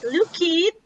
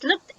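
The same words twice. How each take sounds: First: The ending is said as an extra syllable. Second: The ending is said as a short t sound. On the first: The speaker calls it wrong. "Not looked" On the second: The speaker calls it right. "but it's looked"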